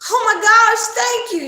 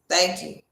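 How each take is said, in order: First: It is said with excited overreaction. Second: It is said calmly and evenly.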